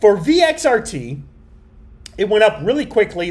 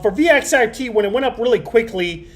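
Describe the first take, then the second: First: It is read slowly. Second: It is read fast.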